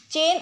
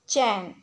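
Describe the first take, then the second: First: चेन said with a closed e, as "chen"; चेन with a thin e, shown as the mistake; wrong pronunciation. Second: चैन said with an open ai, as "chain"; चैन with a broad ai vowel, the correct way; correct pronunciation. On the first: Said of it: "चेन अशुद्ध शब्द है". (चेन को बंद ए के साथ बोलें) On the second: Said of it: "शुद्ध शब्द है". (चैन को खुले ऐ के साथ बोलें) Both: Shown as a demonstration.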